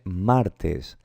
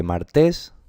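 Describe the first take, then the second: First: "martes" drawn out as MÁR-tes; correct stress on first syllable. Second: "Martes" stressed on the end, mar-TÉS; wrong final stress. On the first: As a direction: put the force on MAR in "martes", slowly falling. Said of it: "Se dice martes". ("martes" con la fuerza en la primera sílaba: MÁR-tes) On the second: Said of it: "No, ¿verdad?". ("Martes" mal acentuada en la última: ¿mar-TÉS?) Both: Shown as a demonstration.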